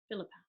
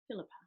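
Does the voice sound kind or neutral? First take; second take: neutral; neutral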